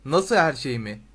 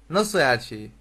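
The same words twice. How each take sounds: First: Giant's retort, louder; thundering giant. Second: Said in the usual way. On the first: A narrator's reading. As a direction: throw the question back with a louder boom. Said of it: "diye gürledi dev". (gürleyen dev, daha yüksek sesle) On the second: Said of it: "diye sordu Harry".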